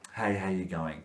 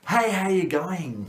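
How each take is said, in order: First: The greeting sounds flat, bored and lifeless. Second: The greeting sounds warm, lively and enthusiastic. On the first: The speaker does not care about helping. The speaker calls it wrong. "actually lost the will to live" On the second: The speaker can't wait to help. The speaker calls it right. "breathe in, have good posture, have good face and say"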